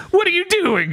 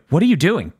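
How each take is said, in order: First: Very high-pitched mock panic; panicked bat. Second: Mildly urgent acted question; lightly voiced warning. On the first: Bat to Denji as the girl runs off, high mock panic. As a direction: squeal it as a flustered bat. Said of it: "and the bat's just like". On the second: Denji to a staring bystander, mildly urgent warning. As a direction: lightly act out an urgent challenge. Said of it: "And then she's like".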